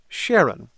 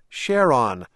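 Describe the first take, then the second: First: One syllable is stressed more than the other. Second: Both syllables carry equal stress. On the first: "We said Charon" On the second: "emphasize both syllables equally"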